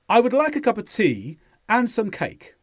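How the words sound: The pauses between phrases are short and natural. "if I say it naturally, hear the pauses even though they're much faster"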